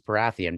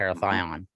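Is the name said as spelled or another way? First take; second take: as spelled; another way. First: The name is pronounced just as it is spelled. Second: The name is pronounced differently from its spelling. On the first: The speaker calls it wrong. "I thought their name was Parathion because it's spelt that way" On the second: The speaker calls it right. "but it's"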